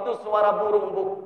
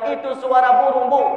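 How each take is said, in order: First: It is said in a calm, normal voice. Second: It is said loudly with angry contempt.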